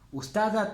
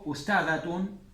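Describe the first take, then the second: First: The word ends in a bare t sound. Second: The word ends with a full tun syllable. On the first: The speaker calls it wrong. "No digan Ustadat. Ustadat no" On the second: The speaker calls it right. "O Ustadatun y leen todo esto"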